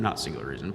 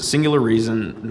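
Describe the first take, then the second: First: Quiet self-correction. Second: Said in the usual way. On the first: Real, not acted. Youth speaker correcting himself to the church, lower and softer aside.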